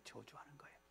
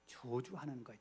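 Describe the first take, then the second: First: Hushed whispered repeat. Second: Said in the usual way. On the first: Shown as a demonstration. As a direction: breathe it out as a whisper. Preacher repeats phrase as whisper. (속삭이듯 낮게)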